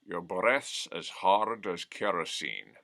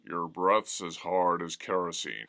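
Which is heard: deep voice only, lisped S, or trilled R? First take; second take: lisped S; deep only. First: The voice is deep, trilled, with S as SH. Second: The voice is deep with plain R and S. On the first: "give yourself a lisp so that the S becomes an S H" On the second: "first, just deepen your voice"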